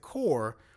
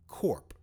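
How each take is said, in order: First: The word ends without any p sound. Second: The word ends with a clear p sound. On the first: The speaker calls it wrong. "they pronounce it Core" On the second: The speaker calls it right. "it should be pronounced Corp"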